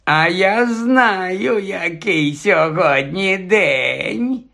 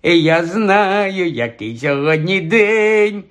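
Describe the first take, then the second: First: High, drawn-out taunt; mocking. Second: Slow teasing chant rising at the end; singsong taunt. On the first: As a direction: stretch every word into a teasing jeer. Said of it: "долинув глузливий голос". (глузливо, розтягуючи слова) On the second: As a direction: chant it like a schoolyard tease. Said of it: "приспівуючи і підходячи ближче". (глузливо приспівуючи) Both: A narrator's reading.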